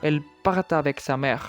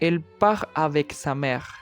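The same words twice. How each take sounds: First: A linking consonant joins part to avec. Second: The words are said without an added linking consonant. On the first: The speaker calls it wrong. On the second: The speaker calls it right.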